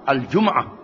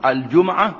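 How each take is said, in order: First: The m is followed by no vowel. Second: The m is followed by an a vowel. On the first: "dengan mati" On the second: "baik di atas mim"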